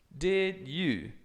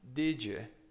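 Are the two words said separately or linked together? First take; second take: separately; linked. First: The two words are said separately. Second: The two words run together as one.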